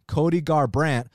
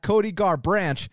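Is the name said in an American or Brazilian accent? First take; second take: American; Brazilian. First: It is said in a plain American accent. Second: It is said in a Brazilian accent.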